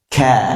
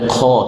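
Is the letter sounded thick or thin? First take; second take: thin; thick. First: The letter is sounded thin with a clear vowel. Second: The letter is sounded thick with a darkened vowel. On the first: The speaker calls it right. "tapi ka" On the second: The speaker calls it wrong. "tidak boleh ko"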